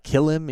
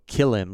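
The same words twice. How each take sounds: First: "Kill him" pitched up high as a question. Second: Said in the usual way. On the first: Retold or imitated. Hunter imitating his partner checking with him, "Kill him" as a higher-pitched question. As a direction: ask "Kill him" with a raised, querying pitch. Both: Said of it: "like, asking me a question".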